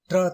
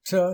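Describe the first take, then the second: First: "ட்ரா" as hard t plus rolled r; wrong pronunciation. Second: "ட்ரா" blended as in English petrol; correct pronunciation. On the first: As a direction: say "ட்ரா" with the r separate. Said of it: "ட்ரா தவறு". (தவறான உச்சரிப்பு "ட்ரா", ர தனியாக) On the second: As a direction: say "ட்ரா" as one tr sound. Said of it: "சரியானது". (சரியான உச்சரிப்பு "ட்ரா", பெட்ரோல் போல) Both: Shown as a demonstration.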